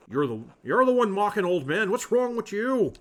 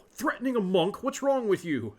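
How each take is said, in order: First: Much louder and higher yell; loud mock yell back at the old monk; angry retort. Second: Indignant, louder and higher; shocked outrage at being threatened; offended monk, loud and high; outraged. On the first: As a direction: shout him down, old man. Andreas yells back at old monk. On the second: Acted.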